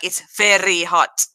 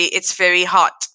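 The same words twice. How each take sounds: First: The R in very is rolled. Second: The R in very is not rolled. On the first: This is how Afrikaans-first speakers say it. "with the way they roll their R's" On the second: This is how an English-first speaker says it. "I say very, ... I don't do that"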